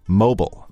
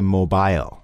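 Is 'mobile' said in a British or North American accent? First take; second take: North American; British. First: It is said in a North American accent. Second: It is said in a British accent. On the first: "here in Canada and in the USA, mobile, that is the pronunciation we use" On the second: "in England they say mobile"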